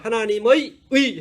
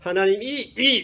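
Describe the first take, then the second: First: The final syllables use a gliding 'ui' vowel. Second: The final syllables use a plain 'i' vowel. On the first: The speaker calls it right. "하나님의 의 하라 그러면" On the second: The speaker calls it wrong. "하나님이 이 이래요"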